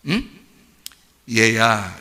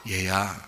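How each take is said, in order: First: Gentle father. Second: "얘야" said low and soft, tenderly. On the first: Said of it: "이럽니다". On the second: A father softly calling his resentful son, tender. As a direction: call him gently like a loving father. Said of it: "이게 부드러운 말이에요". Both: Retold or imitated.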